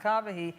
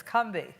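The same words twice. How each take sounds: First: "Combahee" in three syllables, COM-ba-hee; usual mispronunciation. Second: "Combahee" in two syllables, CUM-bee; local pronunciation. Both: Shown as a demonstration. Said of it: "how Combahee is actually pronounced".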